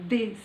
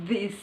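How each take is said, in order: Both takes have the same delivery.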